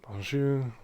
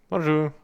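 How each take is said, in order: First: The voice is put on and nasal. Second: The voice is plain, not nasal. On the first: "I need to be a bit nasally" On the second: "I can't fucking do my voice today"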